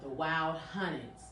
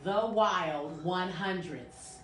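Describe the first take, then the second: First: The last word is said as hunnids, no d. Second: The last word is said as one hundreds, with d. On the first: The speaker calls it right. "Did I say it right?" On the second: The speaker calls it wrong. "I was pronouncing it before"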